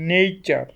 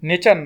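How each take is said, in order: First: The first vowel glides like 'ay' in 'day'. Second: The first vowel is a plain short 'e' sound. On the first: The speaker calls it right. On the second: The speaker calls it wrong. "নেচার না"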